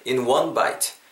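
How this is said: The stress falls on one bite. The speaker calls it right. "one bite 이 부분에 강세를 좀 바꿔 넣어주시면은"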